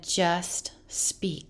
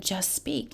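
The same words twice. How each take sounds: First: Breathy whispered voice of the Spirit; gentle whisper. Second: Quietly voiced, barely above a murmur; soft quiet voice. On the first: Retold or imitated. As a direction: whisper it softly, like an inner voice. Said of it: "and he said". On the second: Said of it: "He said".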